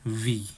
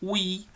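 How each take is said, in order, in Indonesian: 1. Kata ini diawali dengan bunyi v. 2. Kata ini diawali dengan bunyi w. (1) "tetapi v" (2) "bukan wi"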